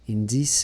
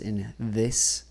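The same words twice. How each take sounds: First: The th sound is soft and unclear. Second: The th sound is crisp and clearly enunciated. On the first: The speaker calls it wrong. "it's sounding like he's saying" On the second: The speaker calls it right. "kind of more enunciated"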